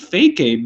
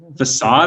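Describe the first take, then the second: First: The middle consonant sounds like a k. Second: The middle consonant sounds like an s. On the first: The speaker calls it wrong. "I thought it was pronounced fake aid until I was like fifteen" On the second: The speaker calls it right. "I think, is how you pronounce it"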